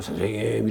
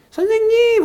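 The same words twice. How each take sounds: First: Said in the usual way. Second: 선생님! called much higher; raised excited call. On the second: Retold or imitated. Caller phoning the teacher back, voice raised high. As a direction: pitch 선생님! way up, overjoyed. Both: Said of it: "이게 목소리가 올라가 있더라고요".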